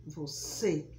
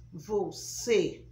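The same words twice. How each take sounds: First: Você lower, closed ê. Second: Você loud, closed ê. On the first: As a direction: repeat você low, ê closed. (você mais grave, ê fechado) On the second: (você com ê fechado) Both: Shown as a demonstration. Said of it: "o som já se fecha".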